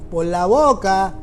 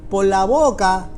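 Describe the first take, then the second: No difference in how they are said.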